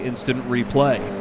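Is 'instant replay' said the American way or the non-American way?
American. It is said the way Americans say it. "say it as Americans do"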